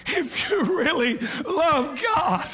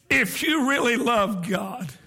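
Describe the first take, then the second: First: Fervent shout. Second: Said in the usual way. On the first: Shown as a demonstration. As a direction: cry it out with passion.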